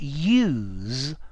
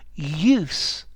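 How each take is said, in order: First: The word ends with a z sound. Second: The word ends with an s sound. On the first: It is used as a verb or adjective. "with the Z sound makes verbs and adjectives" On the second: It is used as a noun. "the noun with an S"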